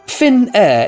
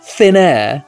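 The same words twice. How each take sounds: First: It is said as the airline name Finnair. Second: It is said so it sounds like thin hair. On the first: The speaker calls it right. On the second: The speaker calls it wrong.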